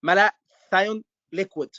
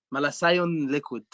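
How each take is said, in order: First: Said in the usual way. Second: Egyptian accent, "malathion" with the th said as s. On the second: Shown as a demonstration. Teacher showing students the Egyptian way of saying it, Egyptian accent. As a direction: say "malathion liquid" the Egyptian way, malasion. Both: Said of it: "In Egyptian accent".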